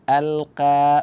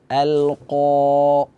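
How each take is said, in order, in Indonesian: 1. Bunyi q ringan dan tipis. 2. Bunyi q berat dan penuh. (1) "Jangan kita baca" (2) "huruf tebal. Jadi suara kira kita arahkan ke atas"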